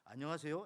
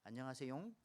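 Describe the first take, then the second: First: It is said in a plain, flat way. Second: It is said in a soft, cute way.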